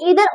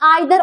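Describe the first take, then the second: First: The first vowel sounds like 'ee'. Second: The first vowel sounds like 'eye'. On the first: "इसे हम ईदर और भी बोल सकते हैं" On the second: "आइदर और भी बोल सकते हैं"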